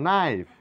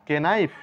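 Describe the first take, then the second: First: The K sound is silent. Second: The K sound is pronounced. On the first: The speaker calls it right. "বলবো নাইফ" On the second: The speaker calls it wrong. "কে নাইফ নয়"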